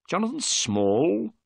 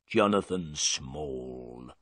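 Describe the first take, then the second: First: "Jonathan Small?" rising high, slow and surprised; questioning echo. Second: Low, slow sullen answer; gruff prisoner. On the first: Holmes repeats the prisoner's name, "Jonathan Small?" rising and slow. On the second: Prisoner tells Holmes his name, low, slow and sullen. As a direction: give your name grudgingly, low and slow. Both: Acted.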